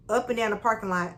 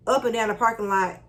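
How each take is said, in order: Both takes have the same delivery.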